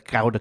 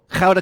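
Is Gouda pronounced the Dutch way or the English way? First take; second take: English; Dutch. First: Gouda is said with an English pronunciation. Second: Gouda is said with a local Dutch pronunciation.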